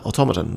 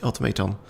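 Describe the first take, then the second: First: "automaton" said as aw-TOM-uh-ton; corrected pronunciation. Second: "automaton" said as auto-MAY-ton; mistaken pronunciation. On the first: Reader fixing the slip, "automaton" as aw-TOM-uh-ton. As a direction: put the stress on TOM in "automaton". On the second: Reader slipping on the word, "automaton" as auto-MAY-ton. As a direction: give "automaton" a long MAY. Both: Real, not acted. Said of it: "Yeah, there we go, automaton".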